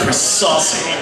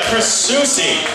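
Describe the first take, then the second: First: The surname sounds like saucy. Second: The surname sounds like susie. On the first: This is a common mispronunciation of the name. The speaker calls it wrong. "if you're going to have a name mispronounced" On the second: This is how the owner says his name. The speaker calls it right. "my name is actually uh"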